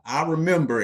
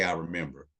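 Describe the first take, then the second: First: High, louder sing-out of a chat reply; higher pitched voice. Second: Said in the usual way. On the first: Shown as a demonstration. Host prompting viewers to type in the chat, higher pitched voice. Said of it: "I did it in, like, a higher pitched voice". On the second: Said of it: "But if you remember me talking about Rocket Labs in the chat".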